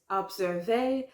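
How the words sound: It is said with a French pronunciation. The speaker calls it right. "But in French, you can't say that. You know, it's"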